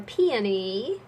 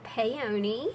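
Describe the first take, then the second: First: Peony as "PEE-uh-nee", drawn out; non-Southern pronunciation. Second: Peony as "pay-OH-nee"; Southern pronunciation. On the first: Showing viewers how non-Southerners say it, Peony as slow "PEE-uh-nee". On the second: Naming the piece for viewers, Peony as Southern "pay-OH-nee". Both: Shown as a demonstration. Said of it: "if you're from somewhere else besides the South".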